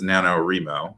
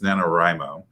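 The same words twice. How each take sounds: First: The stress is not on the 'Wri' syllable. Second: The stress is on the 'Wri' syllable. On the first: The speaker calls it wrong. "sometimes mispronounced as" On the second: The speaker calls it right. "emphasis on the writing"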